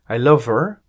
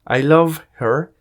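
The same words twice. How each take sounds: First: The h in 'her' is dropped and linked. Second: The h in 'her' is clearly pronounced.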